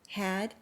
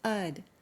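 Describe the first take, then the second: First: The h sound is clearly pronounced. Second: The h sound is dropped. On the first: "had becomes ud" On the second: "had becomes ud when had is a helping verb"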